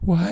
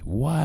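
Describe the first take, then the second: First: It is said in a self-pitying, whiny tone. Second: It is said in a calm, questioning tone. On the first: The person feels sorry for themselves. The speaker calls it wrong. "Don't do it from a self-pity standpoint. Don't say why" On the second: The person genuinely looks for causes. The speaker calls it right. "Do it from an analytical standpoint"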